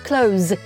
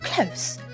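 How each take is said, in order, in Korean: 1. 이 단어는 윙윙거리는 z 소리로 끝납니다. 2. 이 단어는 쉭쉭거리는 s 소리로 끝납니다. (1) "Z 발음이 나요" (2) "S 발음이 나요"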